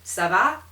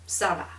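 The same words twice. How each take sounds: First: The pitch rises at the end, like a question. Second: The pitch falls at the end, like a statement. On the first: It asks how things are going. "it can be phrased as a question" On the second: It answers that things are going fine. "it's going. Yes, it's going"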